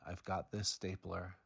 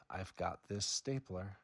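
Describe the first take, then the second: No difference in how they are said.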